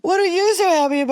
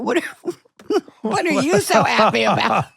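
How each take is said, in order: First: High, fast mock question; high put-on voice, quick and teasing; puzzled coworker. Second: High, laughing mock question; laughing high put-on voice; puzzled coworkers. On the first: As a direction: squeak it like an amused colleague. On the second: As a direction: imitate the crew's amused surprise. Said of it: "And I went".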